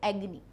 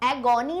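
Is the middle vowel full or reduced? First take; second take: reduced; full. First: The middle vowel is short and reduced. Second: The middle vowel is a full o sound. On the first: The speaker calls it right. "एगनी कहोगे" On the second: The speaker calls it wrong. "एगोनी नहीं कहोगे"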